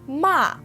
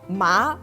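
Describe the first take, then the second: First: The pitch falls sharply from high. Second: The pitch rises toward the end. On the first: It means to scold. "Ma has the fourth tone" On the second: It means numb. "ma has the second tone"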